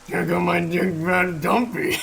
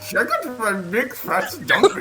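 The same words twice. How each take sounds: First: It is said in a raspy voice. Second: It is said in a high-pitched voice.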